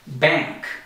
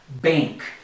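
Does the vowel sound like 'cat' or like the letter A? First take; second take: cat vowel; letter A. First: The vowel is short, as in cat. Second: The vowel sounds like the letter A. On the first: The speaker calls it wrong. "That's incorrect" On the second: The speaker calls it right. "just like you're saying the letter A"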